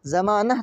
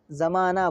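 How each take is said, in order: First: ज़मानह ending in short a plus h; final h wrongly sounded. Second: ज़माना ending in open aa; silent final h. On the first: Teacher showing learners what not to say, h sounded. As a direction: end ज़मानह on an audible h. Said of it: "तो नहीं बोलते हैं". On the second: Teacher showing learners the accepted form, h silent. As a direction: end ज़माना on long aa, no h. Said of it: "बोलते हैं". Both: Shown as a demonstration.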